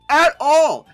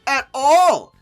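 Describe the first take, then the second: No difference in how they are said.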